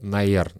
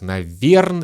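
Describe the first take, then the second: First: The word is squeezed into two short syllables. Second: The final syllables are dropped from the word. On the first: "или вообще «наерн»" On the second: "мы часто произносим как «наверн»"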